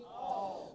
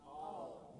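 First: Firmer group reply, still distant; like they mean it. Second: Faint half-hearted group reply; mumbled back softly, without conviction; half-hearted response. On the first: Congregation prompted by preacher to repeat, meaning it. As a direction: answer together with more conviction. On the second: Congregation answering the preacher's question, half-hearted. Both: Real, not acted. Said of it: "Say it like you mean it".

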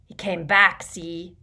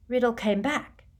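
First: Put-on dim drunkard, loud then dropping; stupidly. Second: Higher, rising query; questioning echo. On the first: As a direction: add it slow-wittedly, louder on "back". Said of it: "he added stupidly". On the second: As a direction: repeat it as a probing question. Riddle probes Morfin's news. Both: A narrator's reading.

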